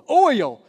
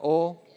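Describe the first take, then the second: First: Oil pushed out loud as "OY-yul"; loud, high, over-enunciated oil; exaggerated clear pronunciation. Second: Oil as one drawn syllable, like "ole"; Oil with the glide swallowed; Oklahoma pronunciation. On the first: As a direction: stretch oil into two syllables for a foreigner. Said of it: "He understood". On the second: Shown as a demonstration. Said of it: "deal with my Oklahoma lingo here".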